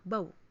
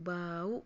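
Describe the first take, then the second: First: It is said quickly in one go. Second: It is said slowly and drawn out. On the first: "langsung dicepetin aja ya" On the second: "atau lambat dulu"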